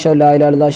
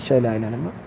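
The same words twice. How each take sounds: First: The phrase is said loudly, in a raised voice. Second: The phrase is said quietly, in a low voice. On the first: "ഒച്ചത്ത് നമ്മൾ പറഞ്ഞായിരുന്നല്ലോ" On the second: "അപ്പം മെല്ലെ പറയണം"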